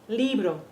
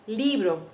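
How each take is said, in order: No difference in how they are said.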